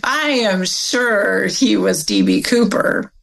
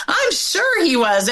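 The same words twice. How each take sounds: First: Slow, each word "I am sure" weighted; emphatic certainty. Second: High, matter-of-fact certainty; certain mother. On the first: Mother in the kitchen, slow and emphatic. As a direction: lean on "I am sure" slowly. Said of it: "but at that moment, it was". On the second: Mother's one certain moment, flat and sure. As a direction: repeat it as plain fact. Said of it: "That's the only time she said that". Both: Retold or imitated.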